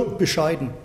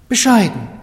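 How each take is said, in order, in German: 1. Das Wort wird widerwillig und abwertend gesagt. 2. Das Wort wird warm und anerkennend gesagt. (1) "ja, bescheiden" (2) "der lebt bescheiden"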